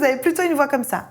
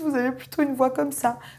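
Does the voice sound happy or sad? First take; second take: happy; sad. First: The voice sounds very happy and bright. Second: The voice sounds sad and low. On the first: The speaker feels very happy. "Quand vous êtes super joyeux" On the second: The speaker feels sad. "Quand vous êtes triste"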